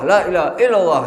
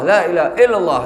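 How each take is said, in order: The two takes are said the same way.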